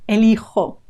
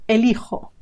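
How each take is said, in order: No difference in how they are said.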